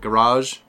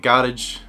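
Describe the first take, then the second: First: It is said in an American accent. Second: It is said in a British accent.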